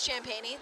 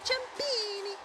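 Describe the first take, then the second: First: The name is pronounced the English way. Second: The name is pronounced the Italian way. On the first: "That is the that is the English pronunciation" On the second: "If it was a more Italian way"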